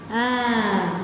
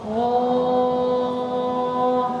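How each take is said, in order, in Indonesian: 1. Vokalnya tipis, ringan, dan terbuka. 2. Vokalnya berat, penuh, dan membulat. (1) "itu tipis" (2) "kalau tebal, oh, kayak gitu"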